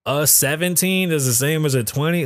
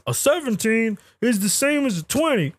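First: Rising disbelieving question; incredulous echo. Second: Higher, mocking voice of the claim; mock quote. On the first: Real, not acted. Host questions the claim, incredulous rising echo. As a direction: repeat it like you can't believe it. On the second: Host mocks an online claim, higher mocking quote. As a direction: parrot the silly claim. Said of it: "anybody serious that says".

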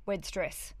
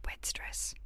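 First: Unvoiced whisper of Wed stress; hushed whisper. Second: Fainter unvoiced whisper of Wed stress; barely audible whisper. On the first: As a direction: breathe the words Wed stress. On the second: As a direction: let Wed stress fade to a breath. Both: Shown as a demonstration. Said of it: "whispered repeat".

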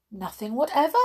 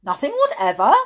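First: Milder, less forceful answer; simple reply. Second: Loud, insistent question with a rise; persisting. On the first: Alice repeating her answer to the king, mild reply. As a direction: answer lightly, without the king's force. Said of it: "said Alice". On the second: King pressing Alice on her answer, loud insistent query. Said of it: "persisted the king". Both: A narrator's reading.

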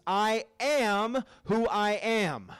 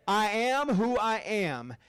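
First: "I am who I am" drawn out slowly, each word weighted; slow emphatic reading. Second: "I am who I am" again slow and resonant; slow emphatic repeat. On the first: Preacher giving God's name, slow and weighty. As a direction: let "I am who I am" land slowly. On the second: Congregation echoing God's name, slow and resonant. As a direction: lean into "I am who I am" with weight. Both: Shown as a demonstration. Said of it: "Everybody say".

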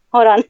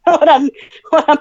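First: Said in the usual way. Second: Laughing through the words; giggling, trying to hold it together. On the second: Real, not acted. Holding back laughter at water spill.

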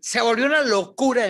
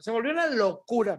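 First: Louder, higher Se volvió una locura with weight on locura; emphatic exclaim. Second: Said in the usual way. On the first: Real, not acted. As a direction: burst out with excitement. (exclamación fuerte y emocionada)

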